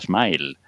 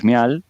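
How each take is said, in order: First: It sounds like the English word smile. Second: It is said the way the spelling suggests. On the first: The speaker calls it right. "se pronuncia smile" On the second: The speaker calls it wrong. "esa ortografía engañosa nos ha tenido toda la vida... diciendo smial"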